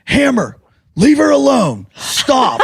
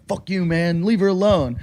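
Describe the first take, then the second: First: High-pitched mock scolding; comically feeble, high telling-off; imitated rescuer. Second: Soft, slightly raised retold challenge; understated mock standing-up-to-him; imagined confrontation. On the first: Storyteller imitates Jason coming to her rescue, high mock scolding. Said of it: "Jason comes in, he goes". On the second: Storyteller voices what Jim expects Jason to say, understated confrontation. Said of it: "Jim thinks Jason's gonna go".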